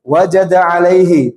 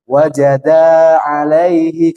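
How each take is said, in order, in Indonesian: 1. Vokalnya dibaca pendek dan rata. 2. Vokalnya dibaca panjang, mengikuti irama lagu. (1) "Harusnya wajada alaihi" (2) "kalau yang belum pernah belajar jadinya gini"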